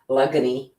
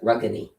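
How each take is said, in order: First: The word begins with an L sound. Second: The word begins with an R sound. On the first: This is the Akwesasne dialect form. "The R's are L sounds" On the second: This is the local dialect form. "They pronounce the R"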